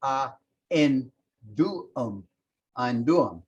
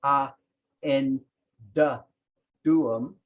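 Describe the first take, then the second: First: Slowly. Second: Spaced out word by word. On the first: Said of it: "you'd say slowly". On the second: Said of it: "so it would be". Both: Shown as a demonstration.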